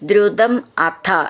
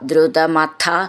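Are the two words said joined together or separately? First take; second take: separate; joined. First: The two words are said as separate words. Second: The two words run together as one word.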